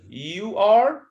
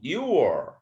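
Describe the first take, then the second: First: It is said as two full words. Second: It is said as one contracted syllable. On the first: The speaker calls it wrong. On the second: The speaker calls it right.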